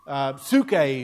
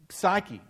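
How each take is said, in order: First: The word has a Greek pronunciation. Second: The word has an English pronunciation. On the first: "if you're using the Greek pronunciation" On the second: "but it's psyche"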